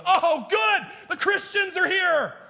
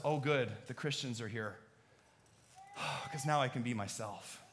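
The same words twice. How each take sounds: First: Mock groan, much higher and louder; sarcastic partygoer dreading arrival; sarcastic partygoer at a wild party, dreading the Christians' arrival. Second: Soft, relieved and grateful; relieved partygoer who can finally be himself, sincere and soft; sincere relief. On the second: Pretend. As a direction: exhale in genuine relief.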